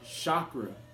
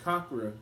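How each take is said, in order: First: The word begins with a soft ch sound. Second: The word begins with a hard k sound. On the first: The speaker calls it wrong. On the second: The speaker calls it right.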